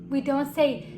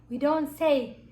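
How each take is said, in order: No difference in how they are said.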